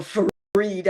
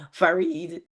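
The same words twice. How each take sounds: First: Farid with the r dropped, like fah-EED; Patois-style Farid. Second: Said in the usual way. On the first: Shown as a demonstration. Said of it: "how you say it in either Patois". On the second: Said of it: "reminds me of how you say it".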